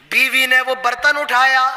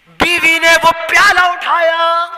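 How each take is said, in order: First: Said in the usual way. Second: Louder and higher, leaning on پیالہ; emphatic retelling. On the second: Acted. Preacher dwelling on the wife lifting the bowl, louder. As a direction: say it again with more weight. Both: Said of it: "repeat of the line".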